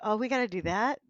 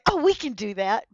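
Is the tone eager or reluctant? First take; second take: reluctant; eager. First: It sounds reluctant and dreading. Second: It sounds eager and confident.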